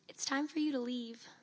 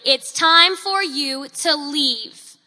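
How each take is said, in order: First: It is spoken very quietly, barely audible. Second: It is spoken much more loudly and firmly. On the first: The speaker lacks confidence and does not yet mean it. "In a barely audible voice" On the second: The speaker now speaks with authority and means it. "And in a much louder voice"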